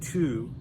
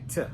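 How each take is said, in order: First: The word has a full, clear vowel. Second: The word shrinks to a short t sound. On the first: "we rarely say to" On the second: "we say t"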